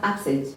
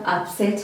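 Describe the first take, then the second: First: The stress is on the first syllable. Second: The stress is on the second syllable. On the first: It is a noun naming a stomach problem. "I'm putting a lot of emphasis on the first syllable" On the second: It is a verb naming an action. "Second part"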